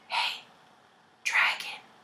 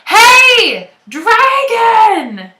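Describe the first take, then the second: First: It is whispered very softly. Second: It is shouted very loudly.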